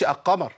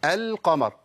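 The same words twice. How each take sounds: First: القمر said as 'a-qamar' with no L; faulty 'aqqamar', L merged away; lam dropped. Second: القمر with the L clearly sounded; careful 'el-qamar', L fully pronounced; clear lam. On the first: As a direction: skip the article's L in القمر. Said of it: "ما بقولش القمر". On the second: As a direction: hold a distinct L before qaf in القمر. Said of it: "انا بقول ايه؟". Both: Shown as a demonstration.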